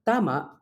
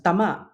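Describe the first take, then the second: First: Tama with a long, stressed TA; stress on first syllable. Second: Tama with MA stressed; short first vowel in tama, weight on the end; stress on final syllable. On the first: Teacher giving the word for correct, tama stressed on TA. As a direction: lengthen the first vowel of tama. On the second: Teacher contrasting the word to hit, tama stressed on MA. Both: Shown as a demonstration. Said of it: "where the stress and vowel length differentiate".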